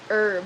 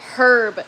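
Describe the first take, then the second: First: The word begins with a vowel, h silent. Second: The word begins with an audible h sound. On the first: "not herb" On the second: "the H in the hillbilly makes me want to say herb"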